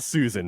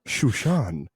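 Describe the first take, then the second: First: The name is said with a plain s sound. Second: The name is said with sh sounds. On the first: The speaker calls it right. "that's not Susan" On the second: The speaker calls it wrong. "no, no, no. It's Shushan"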